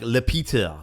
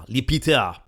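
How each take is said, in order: First: Said in the usual way. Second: Names it the French way, Le Peter as "li pitə"; a hammed-up French "Le Peter"; mock French accent. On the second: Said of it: "terrible approximation of your accent".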